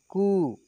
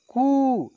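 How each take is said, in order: First: कु said gently at usual pitch, short u; gentle short vowel. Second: कु pushed high and loud with long u; forceful long vowel. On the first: Teacher demonstrating first of the pair, gentle short कु. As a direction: ease lightly through कु. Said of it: "एक को धीरे से बोलेंगे". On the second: Teacher demonstrating second of the pair, forceful long कु. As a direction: drive out a drawn-out कु, falling at the end. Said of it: "बाद वाले को जोर से बोलेंगे". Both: Shown as a demonstration.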